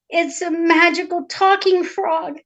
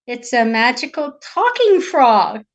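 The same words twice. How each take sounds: First: Higher, slow princess explanation; earnest princess. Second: Slow, loud echo in disbelief; incredulous king. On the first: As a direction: insist slowly, pitched up a little. Princess explains to her father. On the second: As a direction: repeat it slowly, doubting every word. Doubting king repeats her words. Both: Acted.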